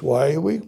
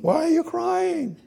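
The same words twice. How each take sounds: First: Said in the usual way. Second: Angel's question lifted high. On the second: Shown as a demonstration. Preacher voicing the angels' question in a high voice. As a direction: ask it in a high voice. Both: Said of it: "Not, nothing else is said. Just".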